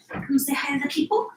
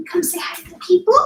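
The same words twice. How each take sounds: First: Soft, higher coaxing. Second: Much higher, fuller sing-song. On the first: Mom asking her son to greet the people, soft baby talk. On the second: Mom asking her son again to greet the people, high sing-song baby talk. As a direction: lift "people" up high and bright. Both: Real, not acted.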